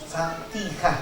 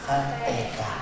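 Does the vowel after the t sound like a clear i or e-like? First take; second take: clear i; e-like. First: The vowel after t is a clear i. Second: The vowel after t sounds like e. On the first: The speaker calls it right. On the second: The speaker calls it wrong. "bukan fatihah. Itu berarti miring, berarti nggak bener"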